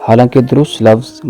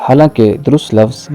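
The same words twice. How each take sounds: No difference in how they are said.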